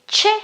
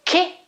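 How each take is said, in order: First: "che" said as CHEH; soft CH sound. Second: "che" said as KEH; hard K sound. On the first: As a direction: say "che" with ch as in check. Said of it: "C and E should be". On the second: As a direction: say "che" with a k, H silent. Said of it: "I've got an H in the middle". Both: Shown as a demonstration.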